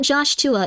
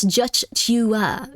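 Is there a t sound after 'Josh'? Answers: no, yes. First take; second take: yes; no. First: A t sound follows the first syllable. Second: No t sound follows the first syllable. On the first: The speaker calls it wrong. "It's not Josh Tua" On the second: The speaker calls it right. "it's Joshua"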